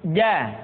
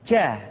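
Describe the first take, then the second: First: The consonant is crisp with no breath flow. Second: Breath audibly flows out with the consonant. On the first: The speaker calls it right. "dia tidak boleh mengalir nafas" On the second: The speaker calls it wrong. "Kesalahan yang sering muncul ketika mengucapkan huruf ja adalah mengalirnya nafas"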